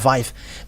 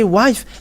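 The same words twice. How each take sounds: First: The word begins with a V sound. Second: The word begins with a W sound. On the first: "they uh, pronounce it uh, wife" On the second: "if you say wife"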